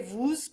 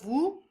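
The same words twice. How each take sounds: First: The final s is pronounced aloud. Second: The final s is silent. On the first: The speaker calls it wrong. "we wouldn't say vous" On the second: The speaker calls it right. "These consonants ... are normally silent"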